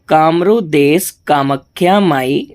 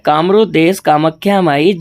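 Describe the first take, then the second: First: It is spoken slowly and deliberately. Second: It is spoken at a normal pace.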